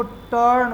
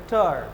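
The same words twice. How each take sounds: First: "टर्न" with a sounded R before the N; R pronounced. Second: "टर्न" with no R, falling in pitch; silent R. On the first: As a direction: let the R be heard in "टर्न". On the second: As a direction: drop the R in "टर्न", only vowel then N. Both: Shown as a demonstration. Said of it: "क्योंकि आर के बाद N".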